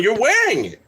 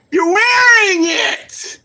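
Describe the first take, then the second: First: Said in the usual way. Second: High, loud, slow shout; incredulous shout. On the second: Real, not acted. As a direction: yell it in disbelief. Repeats building to shout.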